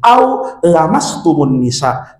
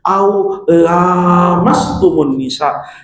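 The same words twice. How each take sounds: First: The first vowel of lamastum is short. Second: The first vowel of lamastum is long. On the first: Merely touching a woman breaks ablution. "yang dibaca pendek" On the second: Only intercourse breaks ablution. "pakai kiroah yang panjang"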